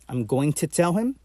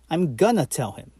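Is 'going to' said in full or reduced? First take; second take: full; reduced. First: Going to is said fully as separate words. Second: Going to is reduced and blended into gonna. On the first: "going to" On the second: "turning into gonna"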